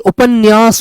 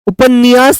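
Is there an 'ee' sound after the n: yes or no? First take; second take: no; yes. First: No extra 'ee' sound follows the n. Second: An extra 'ee' sound follows the n. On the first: The speaker calls it right. "उपन्यास होता है" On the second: The speaker calls it wrong. "उपन्यास नहीं बेटा, नी ई की आवाज मत लाइए"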